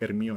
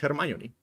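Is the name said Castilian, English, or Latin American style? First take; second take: Castilian; English. First: The name is said with Castilian Spanish pronunciation. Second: The name is said with English pronunciation. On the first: "In the Spanish from Spain dub, they call her" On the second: "her name in the original is"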